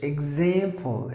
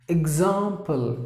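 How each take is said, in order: First: It is said in an American accent. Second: It is said in a British accent. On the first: "example is American" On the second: "Example is British"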